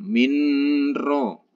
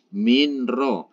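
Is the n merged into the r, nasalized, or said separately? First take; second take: nasalized; separate. First: The n is held with a nasal hum. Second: The n is pronounced separately before the r. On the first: "apalagi didengungkan minro ... itu salah" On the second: "jangan sampai minro"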